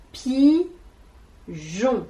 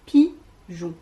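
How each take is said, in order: First: "pigeon" as long pi..., long pause, geon; very slow "pigeon", pulled apart; split into syllables. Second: "pigeon" as two short beats, falling; louder short "pi", brief gap, then "geon"; "pigeon" in crisp separate syllables; syllables put together. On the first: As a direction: stretch both halves of "pigeon". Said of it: "La première syllabe, c'est pi". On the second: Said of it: "qui vont ensemble". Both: Shown as a demonstration.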